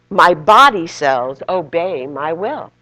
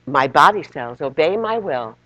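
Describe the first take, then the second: First: It is said loudly. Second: It is said at normal volume.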